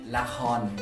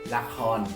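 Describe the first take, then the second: Both takes have the same delivery.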